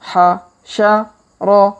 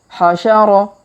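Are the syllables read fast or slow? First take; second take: slow; fast. First: The syllables are read slowly with gaps. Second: The syllables are read quickly together. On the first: "kita baca pelan-pelan" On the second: "Kalau dipercepat"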